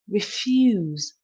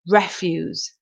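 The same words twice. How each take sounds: First: The stress is on the second syllable. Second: The stress is on the first syllable. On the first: To be unwilling or say no. "the stress is on the last part of the word, the second syllable" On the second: Rubbish thrown away as trash. "the stress is on the first part of the word, the first syllable"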